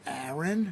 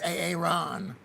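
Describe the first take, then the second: First: The name is said in the ordinary way. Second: The name is said in an odd, broken way. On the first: The name is said the way its owner says it. The speaker calls it right. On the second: The speaker does not know how the name is said. The speaker calls it wrong.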